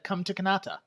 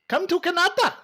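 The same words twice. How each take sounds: First: It is said in a plain normal voice. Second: It is said in a stereotyped put-on voice.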